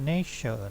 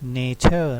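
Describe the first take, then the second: First: The middle consonant is a ch sound. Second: The middle consonant is a plain t sound. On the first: "แต่ฝรั่งจะอ่านว่า nature เนาะ nature ประมาณแบบตัวชอช้าง" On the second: "ที่จริงต้องอ่านว่า"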